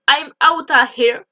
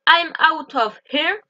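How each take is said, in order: First: Out of is squeezed into one quick outta. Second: Out of is said fully as two words.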